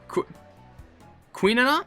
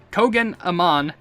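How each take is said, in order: First: The first part sounds like 'queen'. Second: The first part sounds like 'kogen'. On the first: The speaker calls it right. "I think it's just like Qu Queenanam?" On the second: The speaker calls it wrong. "I pronounce it Kogen Aman, or Amaen, but that's very wrong"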